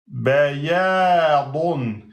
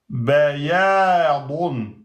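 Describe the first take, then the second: The two takes are said the same way.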